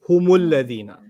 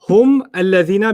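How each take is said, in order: First: Hum links to the next word with u. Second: Hum ends with a stop on the m. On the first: "You replace that dam, that sukoon sound with an u sound" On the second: "became what?"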